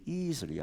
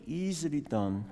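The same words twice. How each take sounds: First: Said in the usual way. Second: Easily leaned on with a raised pitch; emphasize the word easily; easily pushed up high and held; stress on easily. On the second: Shown as a demonstration. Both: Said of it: "I emphasize the word".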